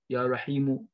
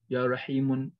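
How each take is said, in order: First: The word ends on a vowel, no n. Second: The word ends with an added n sound. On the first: The speaker calls it right. "You say" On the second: The speaker calls it wrong. "You don't say"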